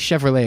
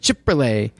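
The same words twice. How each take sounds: First: Chevrolet is pronounced the ordinary, standard way. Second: Chevrolet is pronounced in an odd, quirky way. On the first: This is how most people say it. "He would never say Chevrolet" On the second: This is how the ad announcer always said it. "It was always Chevrolet"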